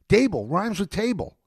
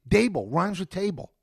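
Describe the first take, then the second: No difference in how they are said.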